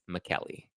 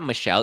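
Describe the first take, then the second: First: The name has a 'k' sound in the middle. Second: The name has a 'sh' sound in the middle. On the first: The speaker calls it right. "It's McKelly" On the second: The speaker calls it wrong. "Or I guess it's not Michelle"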